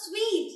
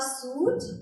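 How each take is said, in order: First: The word sounds like 'sweet', with a 'w' sound. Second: The word sounds like 'suit', with no 'w' sound. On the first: The speaker calls it right. "You just book a sweet" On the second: The speaker calls it wrong. "No, it's not suit"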